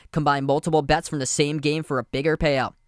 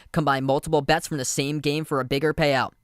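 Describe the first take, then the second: The two takes are said the same way.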